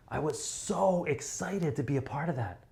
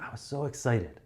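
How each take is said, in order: First: Higher, exaggerated thrill; big excitement. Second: Slightly raised excitement; a touch of enthusiasm; a bit excited. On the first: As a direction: sell it to a huge crowd. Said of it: "If it's fifteen thousand people, you'll be like". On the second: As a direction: keep it modest, for a small room. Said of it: "If it's fifteen people, you might be like". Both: Shown as a demonstration.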